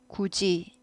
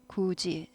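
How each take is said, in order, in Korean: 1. 두 번째 음절은 j 소리로 나요. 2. 두 번째 음절은 j 소리로 나요.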